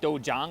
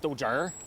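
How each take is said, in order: First: It ends in a plain -iang, no added R. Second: It ends with an added R sound.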